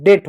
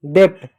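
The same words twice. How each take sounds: First: डेट with the middle consonant silent; vowel straight into t in डेट; correct pronunciation. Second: डेप्ट with a consonant before t; "dept", p sounded in डेप्ट; wrong pronunciation. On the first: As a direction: say डेट as "det". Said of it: "डेट होता है". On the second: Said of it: "गलत होता है". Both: Shown as a demonstration.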